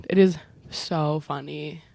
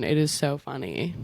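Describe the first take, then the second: First: "It is so funny" slower, each word leaned on; slow down and press every word of "It is so funny"; emphatic repeat. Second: Said in the usual way. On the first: Real, not acted. Fan insisting her favourite film is funny, slow and emphatic.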